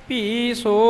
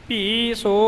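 No difference in how they are said.

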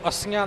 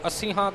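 First: It is said without an h sound. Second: It is said with an h sound. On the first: The speaker calls it wrong. "ਇਹਨੂੰ ਅੱਸੀਆਂ ਨਹੀਂ ਬੋਲ ਜਾਣਾ" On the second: The speaker calls it right. "ਹਾਹੇ ਦਾ ਉਚਾਰਨ ਕਰਕੇ"

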